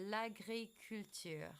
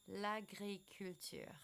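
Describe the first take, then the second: The two takes are said the same way.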